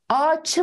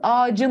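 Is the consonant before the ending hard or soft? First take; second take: hard; soft. First: It keeps the hard ç sound before the ending. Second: It uses the soft c sound before the ending. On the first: The speaker calls it wrong. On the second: The speaker calls it right.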